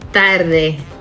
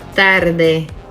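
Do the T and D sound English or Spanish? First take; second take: Spanish; Spanish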